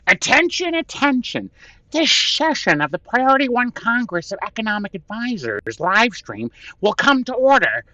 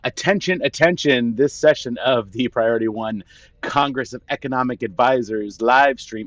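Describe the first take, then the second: First: It is said in a put-on Frankie voice. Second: It is said in his own normal voice.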